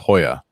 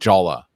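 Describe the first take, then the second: First: The word begins with an H sound. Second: The word begins with a J sound. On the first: "to pronounce it in Spanish, it's Hoya" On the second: "It looks like Jolla"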